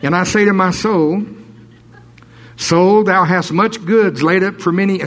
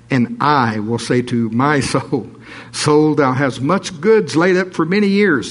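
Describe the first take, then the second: First: Higher and louder, preaching it out; rising into full preaching voice; preacher breaking into a louder, higher read. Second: Slow read, "I" and "my" stressed; measured, leaning on "I" and "my"; steady reading of the rich man's words. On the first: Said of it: "I'm not supposed to preach". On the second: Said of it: "I always emphasize the I's and the me's here". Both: Shown as a demonstration.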